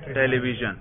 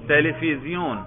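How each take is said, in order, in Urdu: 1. یہ 'v' اور 'zh' آواز کے ساتھ ادا ہوتا ہے۔ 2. یہ 'f' اور 'z' آواز کے ساتھ ادا ہوتا ہے۔ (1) "وہ ٹیلی ویژن نہیں کہتے" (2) "وہ کہتے ہیں ٹیلیفیزیون"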